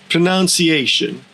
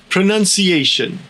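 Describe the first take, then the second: Both takes have the same delivery.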